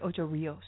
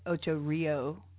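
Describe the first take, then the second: First: The name ends with a final s sound. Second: The name ends without a final s sound. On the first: The speaker calls it right. "but it's actually Ocho Rios" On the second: The speaker calls it wrong. "a lot of people in the U.S. call it Ocho Rio"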